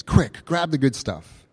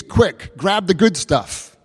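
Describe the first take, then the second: First: Said in the usual way. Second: Louder, higher, and slower on grab the good stuff; urgent. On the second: Acted. Preacher acting out the name's meaning for the congregation, urgent and loud. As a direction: punch out grab the good stuff like a command to hurry.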